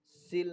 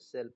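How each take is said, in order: First: The vowel is a long ee sound. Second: The vowel is a short eh sound. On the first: The speaker calls it wrong. "सील नहीं पढ़ रहे, ई की तरह नहीं कर रहे हैं" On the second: The speaker calls it right. "बल्कि लेग और सेल पढ़ रहे हैं"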